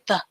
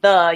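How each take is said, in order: First: The vowel at the end is cut short. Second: The vowel at the end is fully sounded. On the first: The speaker calls it right. "you actually say the, ... you're cutting that E sound off a little bit" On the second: The speaker calls it wrong. "Instead of saying the"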